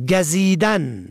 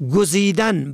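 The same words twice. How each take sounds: First: گزیدن as "gazidan"; fatha on first letter. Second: گزیدن as "guzidan"; rounded "u" after the g in گزیدن; damma on first letter. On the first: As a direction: open "a" after the g in گزیدن. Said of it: "به فتح اول". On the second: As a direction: say گزیدن as gu-zi-dan. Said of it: "به ضم اول". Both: Shown as a demonstration.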